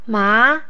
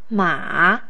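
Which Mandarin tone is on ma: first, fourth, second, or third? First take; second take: second; third. First: The pitch rises from middle to high. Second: The pitch dips low and then rises.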